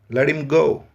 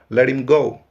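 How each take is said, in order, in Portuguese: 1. O H de him é mudo. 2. O H é mudo; o T soa como R. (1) "Muitas vezes o H é mudo" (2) "esse T vai soar como o nosso R"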